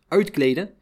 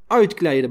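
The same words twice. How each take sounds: First: "Uitkleden?" rising in disbelief; incredulous question. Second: Clipped falling command on "Uitkleden"; guard ordering a prisoner to strip; curt order. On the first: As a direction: echo the order back as a shocked question. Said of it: "vroeg ik verbaasd". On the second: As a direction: bark "Uitkleden" as a flat order. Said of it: "beval Konijn". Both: Retold or imitated.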